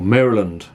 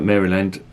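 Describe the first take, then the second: First: It is said with an American pronunciation. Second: It is said with a non-American pronunciation.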